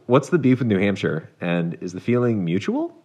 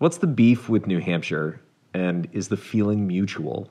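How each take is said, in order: First: The voice rises at the end. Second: The voice does not rise at the end.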